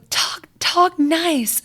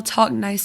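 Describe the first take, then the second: First: Put-on high, slow, bratty little-girl scolding; bossy kid telling her brothers off, slow and high; mean little girl. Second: Said in the usual way. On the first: Little sister scolds whining brothers in a mean, high, slow voice. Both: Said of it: "in the meanest voice".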